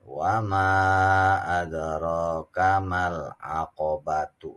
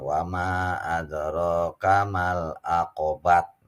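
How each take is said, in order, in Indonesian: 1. Kata terakhir berakhir dengan bunyi tu. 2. Kata terakhir berakhir dengan bunyi t. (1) "Itu kalau dibacanya wasol" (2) "nah itu keliru"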